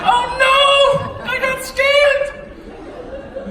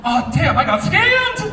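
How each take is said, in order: First: Very high, loud, drawn-out mock wail; hammed-up horror. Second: Loud, high exclamation of sudden realization; mock dismay. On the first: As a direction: wail it slowly in exaggerated dismay. Repeats the realization, more exaggerated. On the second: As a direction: play up the shock of being conned. Acting out realizing he was scammed.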